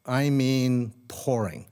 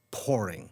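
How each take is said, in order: First: Pouring drawn out slow and heavy; stress on pouring. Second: Said in the usual way. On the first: Shown as a demonstration. Telling the audience how hard it rained, pouring stretched slowly.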